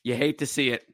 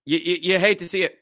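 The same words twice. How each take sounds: First: Said in the usual way. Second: Mock sympathy. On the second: Shown as a demonstration. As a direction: fake a sorry tone over a rival's injury.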